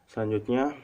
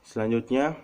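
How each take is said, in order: The two takes are said the same way.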